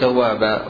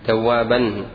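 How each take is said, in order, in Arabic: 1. تنتهي الكلمة بحرف العلة الألف الممدودة. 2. تنتهي الكلمة بصوت النون. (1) "أنت تقول توابا" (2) "ولا تقول توابا"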